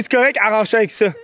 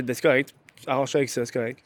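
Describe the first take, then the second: First: Higher, quicker brush-off; re-enacted snappy dismissal, fast and raised; brusque retold reply. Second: Low, muted dismissal; retold curt reply, soft and low; curt brush-off. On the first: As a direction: rattle off a curt reply, pitched up. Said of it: "Je pense que de la façon que j'ai". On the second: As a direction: brush them off quietly, pitched down. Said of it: "je pense que j'ai été trop bête".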